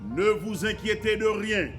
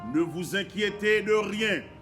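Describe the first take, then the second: First: It is read at a normal pace. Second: It is read slowly. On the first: "Je lis pour vous" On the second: "Je relis lentement"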